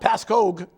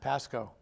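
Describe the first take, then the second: First: The name ends with a 'kog' sound. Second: The name ends with a plain 'ko' sound. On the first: The speaker calls it wrong. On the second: The speaker calls it right.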